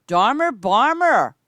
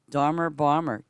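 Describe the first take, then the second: First: Higher, louder, slow call of the name. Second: Said in the usual way. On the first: Real, not acted. Streamer greets a returning player by name, calling out loudly. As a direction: stretch the name out like hailing a friend across the field.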